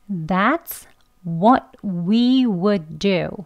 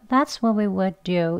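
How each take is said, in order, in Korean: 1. 모든 단어를 완전히 발음해요. would도 포함해서요. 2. would는 약하게 'ud' 소리로 줄어요. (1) "W 모양 동그랗게 해서 펼치면서 다 발음하는 강형으로" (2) "약형이죠"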